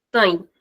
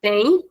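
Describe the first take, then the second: First: Tem with a closed, shortened vowel; closed short vowel. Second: Said in the usual way. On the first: Shown as a demonstration. Teacher showing the difference, closed tem. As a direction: close the mouth more for tem. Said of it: "This is the difference". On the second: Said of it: "it's the normal sound".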